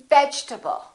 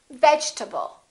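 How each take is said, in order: No difference in how they are said.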